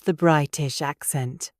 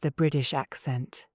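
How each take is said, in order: First: The T in British is a clear, stopped T. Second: The T in British sounds like a soft tap. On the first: The speaker calls it right. "There is a T in the middle. Pronounce it" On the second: The speaker calls it wrong. "No, you do not"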